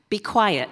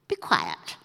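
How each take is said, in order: First: It is said in a polite, gentle tone. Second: It is said in a stern, commanding tone. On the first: It is a courteous request. "says the NIV very politely" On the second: It is an authoritative command. "says Jesus sternly"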